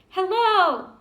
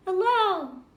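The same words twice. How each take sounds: First: Big loud call from a mountaintop; child shouting from the top to hear an echo; shouted hello. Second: The same hello coming back from far off; distant echo. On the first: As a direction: call out high across the valley. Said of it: "I shouted". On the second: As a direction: sound like your own voice returning from across the mountains. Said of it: "only far away". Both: Retold or imitated.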